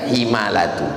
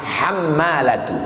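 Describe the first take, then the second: First: The first vowel is an 'i' sound. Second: The first vowel is an 'a' sound. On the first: The speaker calls it wrong. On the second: The speaker calls it right. "cara membacanya bi fathil muhmalah"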